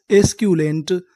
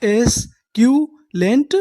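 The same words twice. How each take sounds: First: Said in the usual way. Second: एस्क्यूलेंट stretched slowly with a rise; slow sounding out. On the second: Shown as a demonstration. Teacher answering his own question, slow. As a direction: draw एस्क्यूलेंट out. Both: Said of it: "उन्हें हम लोग क्या बोलते हैं English में?".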